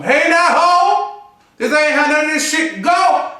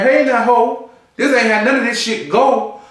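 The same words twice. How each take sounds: First: Jennifer Lewis. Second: Said in the usual way. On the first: Retold or imitated. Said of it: "I sound like Jennifer, uh, Jennifer, uh, Lewis". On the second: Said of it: "they on stage looking like".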